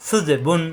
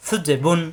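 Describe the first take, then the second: No difference in how they are said.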